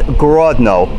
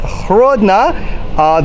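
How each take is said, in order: First: The name begins with a hard G sound. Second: The name begins with a soft H sound. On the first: This is the Russian form of the name. "which is the Russian pronunciation" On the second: This is the local Belarusian form of the name. "that is the Belarusian pronunciation"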